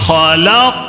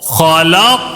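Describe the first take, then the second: Both takes have the same delivery.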